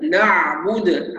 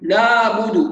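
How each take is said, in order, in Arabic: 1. صوت العين يُسمع بوضوح. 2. صوت العين يكاد يُسمع بالكاد. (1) "هكذا نعبد، عين واضحه" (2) "العين الساكنه بعض الناس بتنطقها عيما ... فين العين؟"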